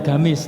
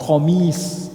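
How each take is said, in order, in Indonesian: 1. Kata ini diawali dengan bunyi G biasa. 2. Kata ini diawali dengan bunyi Q yang dalam di tenggorokan. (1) "bahasanya bukan gamis" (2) "tapi pakai kof"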